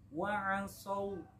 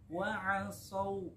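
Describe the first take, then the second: Both takes have the same delivery.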